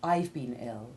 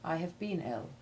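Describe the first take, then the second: First: The verb is contracted onto the pronoun. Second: The verb is full but said without stress. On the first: "you would more often say" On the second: "rather than"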